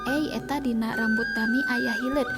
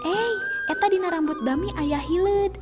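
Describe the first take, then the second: First: It is read flatly, without feeling. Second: It is read with a frightened tone. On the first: The speaker calls it wrong. "Henteu dibaca lempeng" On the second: The speaker calls it right. "siga anu kasieunan kitu"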